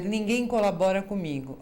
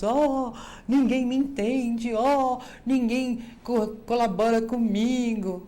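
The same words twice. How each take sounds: First: Said in the usual way. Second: Mock whimper, higher, louder and slow; drawn-out mock lament, pitched up; whiny complaining. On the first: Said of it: "você dizer". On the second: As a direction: moan it like a self-pitying complainer. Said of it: "ficar reclamando e chorando pelos cantos".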